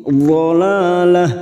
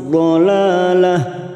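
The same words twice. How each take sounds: The two takes are said the same way.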